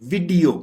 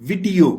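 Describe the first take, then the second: No difference in how they are said.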